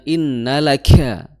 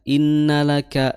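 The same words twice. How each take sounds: First: The k is released with exaggerated breathiness. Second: The k is released plainly, with little breath. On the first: The speaker calls it wrong. "innalaka itu dibuat-buat hamsnya" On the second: The speaker calls it right. "yang netral saja, yang biasa saja"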